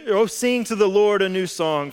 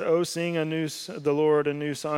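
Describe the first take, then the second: First: It is read with lively excitement. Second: It is read flatly, without excitement.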